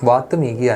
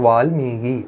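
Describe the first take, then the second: First: A t sound comes before the m. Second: An l sound comes before the m. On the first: The speaker calls it wrong. "വാത്മീകി അല്ല" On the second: The speaker calls it right. "അപ്പോൾ വാൽമീകി"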